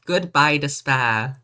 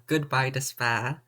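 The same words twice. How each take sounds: First: Dramatic title call. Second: Said in the usual way. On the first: Pretend.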